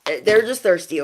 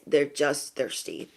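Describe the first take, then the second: First: Said in the usual way. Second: Low, slow, much softer; quiet emphasis. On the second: Real, not acted. Reassuring besties about the gossips, quiet slow repeat. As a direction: let it sink down slowly and quietly.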